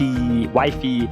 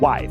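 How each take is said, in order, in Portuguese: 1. Uma vogal i extra vem depois do f final. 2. A palavra termina limpa no som de f. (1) "O brasileiro quer falar wife" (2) "a pronúncia é wife"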